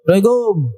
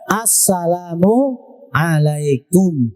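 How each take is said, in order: First: The words are run together and slurred. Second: Each word is pronounced clearly and distinctly. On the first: The speaker calls it wrong. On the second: The speaker calls it right. "Jelas kalimatnya"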